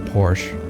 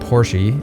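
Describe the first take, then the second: First: The name is said the anglicized way. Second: The name is said the German way. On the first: The speaker calls it wrong. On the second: The speaker calls it right.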